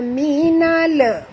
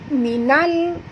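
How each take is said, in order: First: The word ends with a bouncing release. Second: The word ends smoothly without a bounce. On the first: The speaker calls it wrong. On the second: The speaker calls it right.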